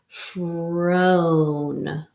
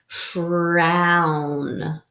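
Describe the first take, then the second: First: The vowel is a long 'oh' sound. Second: The vowel is an 'ow' sound. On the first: The speaker calls it wrong. "let's try it first with the O sound" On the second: The speaker calls it right. "let's try it with the ow sound"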